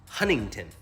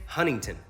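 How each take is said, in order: First: The first t sound is dropped entirely. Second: The first t sound is dropped entirely.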